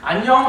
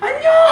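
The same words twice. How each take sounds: First: It is a cool, distant greeting. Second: It is an excited, high-pitched greeting.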